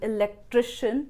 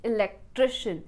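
The two takes are said the same way.

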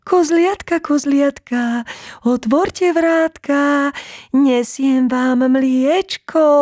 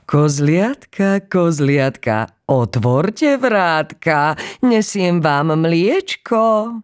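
First: It is said in the thinnest, highest voice. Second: It is said in a normal, unthinned voice.

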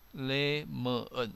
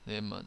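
First: The parts are said slowly and separately. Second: The parts are said quickly and run together.

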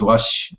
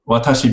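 First: The word has two syllables, with 'ta' dropped. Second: The word has three syllables, with 'ta' pronounced. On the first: This is a casual colloquial form. "They'll just drop like a consonant" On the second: This is the standard form. "instead of saying watashi"

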